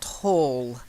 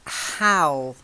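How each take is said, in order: First: The vowel sounds like the one in 'all'. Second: The vowel sounds like the one in 'Al'. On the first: The speaker calls it wrong. "not like hall and all" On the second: The speaker calls it right. "it's Hal, not Hall. ... So Hal is like Al"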